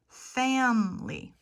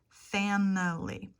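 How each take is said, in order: First: The middle vowel is dropped, leaving two syllables. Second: The word is said with three full syllables. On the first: "English speakers will say family. Family. Two syllables" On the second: "family and every could have three syllables"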